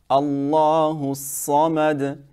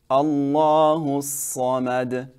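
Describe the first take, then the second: No difference in how they are said.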